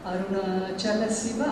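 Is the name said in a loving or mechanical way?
loving. It is said warmly and tenderly, with feeling. The name is said with love and devotion. The speaker calls it right. "ఇష్టంగా, ప్రేమగా"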